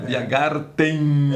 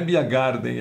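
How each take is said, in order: First: The final syllable starts with a T sound. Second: The final syllable starts with a D sound. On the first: This is the German pronunciation. The speaker calls it right. "é Biergarten, alemão é com T" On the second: This is the English-style pronunciation. The speaker calls it wrong. "não é Biergarten"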